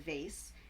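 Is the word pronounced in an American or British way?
American. The word has an American-style pronunciation. "instead of"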